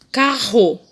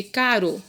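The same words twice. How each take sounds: First: CARRO with an h-like double R, loud; strong double R. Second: CARO with a light tongue-tap R; single tapped R. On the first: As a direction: say "carro" emphatically as "ca-ho". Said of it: "dois R's". ("carro" com R forte, bem marcado) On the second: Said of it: "um R, ficou o quê?". ("caro" com R brando, de um toque só) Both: Shown as a demonstration.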